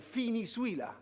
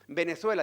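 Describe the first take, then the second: First: The first consonant sounds like an f. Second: The first consonant sounds like a Spanish b.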